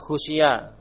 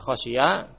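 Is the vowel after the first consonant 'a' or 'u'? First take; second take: u; a. First: The first vowel is a rounded 'u' sound. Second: The first vowel is an open 'a' sound. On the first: The verb is passive: it was feared by others. "dengan mendhammah huruf kha" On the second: The verb is active: the subject himself feared it. "kalau tadi bina lil fa'il"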